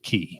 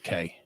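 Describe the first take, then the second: First: The vowel sounds like the one in 'see'. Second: The vowel sounds like the one in 'say'. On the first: The speaker calls it right. "it's pronounced key, like K E Y" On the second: The speaker calls it wrong. "not K"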